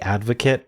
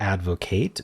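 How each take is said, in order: First: The last syllable is a weak 'it' sound. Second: The last syllable is a full 'ate' sound. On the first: The word names a person who supports something. "depending on if we want it to be a noun" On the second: The word names the action of supporting something. "or a verb"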